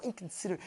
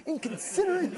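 First: Lower, much softer sneering mutter of "inconsiderate"; contemptuous mutter. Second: Said in the usual way. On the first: Retold or imitated. Quoting the fellow's hurtful insult, a soft lower mutter. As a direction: let "inconsiderate" drop low and soft, with disdain. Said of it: "the way he said it". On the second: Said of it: "He could have said".

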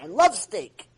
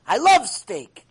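First: Said in the usual way. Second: Louder, slower, savoring love; hammed-up steak lover gushing; slow swooning "I love steak". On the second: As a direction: drag out "love" like you crave it. Mimicking the steak lover, repeated.

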